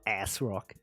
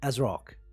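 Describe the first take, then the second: First: The first syllable sounds like 'ass'. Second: The first syllable sounds like 'as', stressing 'rock'. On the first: The speaker calls it wrong. "It's not ass rock" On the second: The speaker calls it right. "you say it like as if. So you say as rock like that"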